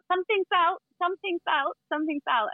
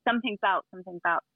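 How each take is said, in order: First: High sing-song call, repeated; imitating market sellers calling out; market vendor call. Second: Said in the usual way. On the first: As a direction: call it out like a street vendor in Thailand. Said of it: "everyone would shout out". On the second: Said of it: "we'd always say".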